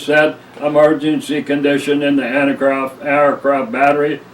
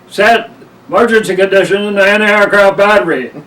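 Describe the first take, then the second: First: The command is said slowly and deliberately. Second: The command is said quickly and urgently. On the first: It is a routine order. "in a slow and deliberate" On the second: Something serious is happening. "he said it fast"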